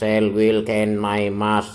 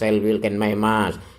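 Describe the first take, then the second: First: The words are said slowly. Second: The words are said fairly quickly. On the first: "Tiga kali yang pertama lambat" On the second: "yang kedua agak cepat"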